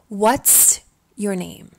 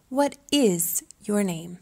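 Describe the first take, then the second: First: What and is blend into one syllable. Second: What and is are said separately.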